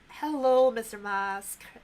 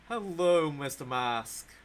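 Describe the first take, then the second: First: It is said through a voice changer. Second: It is said in his natural voice.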